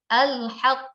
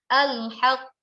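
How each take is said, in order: No difference in how they are said.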